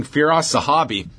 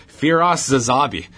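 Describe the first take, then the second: First: Said in the usual way. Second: Zazabi, with a z replacing the h; on-air mispronunciation. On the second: Retold or imitated. Host quotes the broadcast's botched name, mispronounced as Zazabi. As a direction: say the surname wrongly as Zazabi. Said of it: "identified on the air as".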